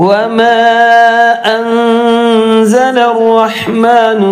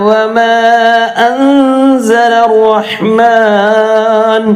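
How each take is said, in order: Both takes have the same delivery.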